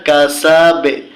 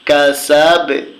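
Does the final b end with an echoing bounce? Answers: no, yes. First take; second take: yes; yes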